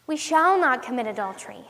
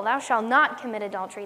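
First: "shall" stressed in "We shall not commit adultery"; emphatic "shall", the rest falling away. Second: "not" punched in "thou shalt not commit adultery"; lower-pitched rule with weight on "not"; stress on NOT. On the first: Shown as a demonstration. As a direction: promise it, putting the weight on "shall". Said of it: "putting the emphasis on the wrong word". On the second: Retold or imitated. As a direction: forbid it by hitting the word "not". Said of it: "you're putting the emphasis on the wrong".

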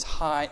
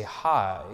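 First: Hi with an exclamation mark; bright exclaimed hi. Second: Said in the usual way. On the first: Shown as a demonstration. Pastor showing the congregation an exclamation-mark hi. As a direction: greet with a lift of excitement. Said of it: "exclamation mark". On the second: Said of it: "So if I say".

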